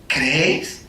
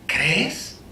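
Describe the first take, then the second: First: Said in the usual way. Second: Pregunta susurrada, íntima; susúrralo como una pregunta al oído; susurro. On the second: Retold or imitated. ("¿Crees?" susurrado, casi sin voz)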